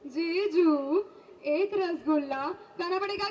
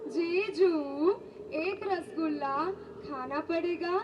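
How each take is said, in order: First: The line is spoken quickly. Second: The line is spoken slowly and drawn out. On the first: "હવે ફાસ્ટમાં" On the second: "slow મોશનમાં"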